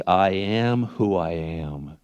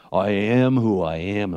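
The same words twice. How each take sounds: First: Slow, measured declaration; God speaking. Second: Lightly put-on deep voice, slowed; a hint of booming God, slowly; movie God voice. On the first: Acted. God answering Moses, slow solemn declaration. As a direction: declare it slowly, each word drawn out. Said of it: "God said to Moses". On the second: Shown as a demonstration. Preacher showing how a film would do it, mild deep God voice. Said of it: "it'd be in a really deep voice".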